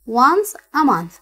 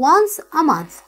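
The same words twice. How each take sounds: First: Once a month stretched out slowly, each word spaced; slow model reading. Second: Said in the usual way. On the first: Shown as a demonstration. Teacher reading the answer aloud for students, slowly. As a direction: read it slowly for the class to follow. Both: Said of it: "فينها؟".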